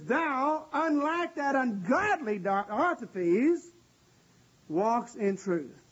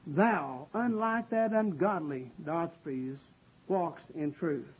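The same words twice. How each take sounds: First: High-pitched, slow stress on "Thou" before "unlike that ungodly Diotrephes"; emphatic THOU. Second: Low, slow, restrained disapproval; upset apostle, understated. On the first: Preacher voicing John's praise of Gaius, with emphatic "Thou". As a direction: set "Thou" apart high, stretch "ungodly Diotrephes", then settle on "walks in truth". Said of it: "in the emphatic position". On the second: Preacher imagining upset John speaking of Diotrephes, low and grave. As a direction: say it low and deliberate, sinking softer to the end. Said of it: "was upset". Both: Acted.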